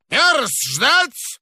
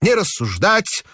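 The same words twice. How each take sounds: First: Put-on high, creaky old man's command; an old director shouting through the wall; hoarse old man. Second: Put-on high old man's order with rising end; hoarse old man. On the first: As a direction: snap it like a tetchy old boss. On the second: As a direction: repeat it like a stubborn old man. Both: A narrator's reading. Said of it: "старческий охрипший голос".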